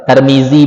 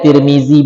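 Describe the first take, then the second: First: The vowels are a sounds, as in Tarmizi. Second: The vowels are i sounds, as in Tirmizi. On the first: "Nah ente fathah" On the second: "nah ente kasur"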